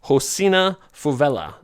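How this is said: The name is said with Portuguese sounds. This is how it is said in Portuguese. "I looked in the pronunciation in Portuguese"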